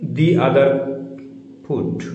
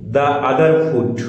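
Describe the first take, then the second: First: The first word is said with a long ee vowel. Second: The first word is said with a short uh vowel.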